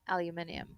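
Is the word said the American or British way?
British. The word is said in a British way.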